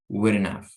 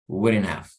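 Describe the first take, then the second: First: The h in have is softened or dropped. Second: The same.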